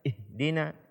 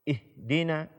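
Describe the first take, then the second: No difference in how they are said.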